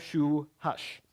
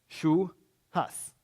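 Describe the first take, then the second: First: The final S sounds like sh. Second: The final S sounds like s.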